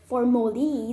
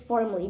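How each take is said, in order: First: The word is said with three syllables. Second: The word is said with two syllables. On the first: The speaker calls it wrong. "If you say it three syllable like formally, then it's completely wrong" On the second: The speaker calls it right. "it's formally because it's only two syllable"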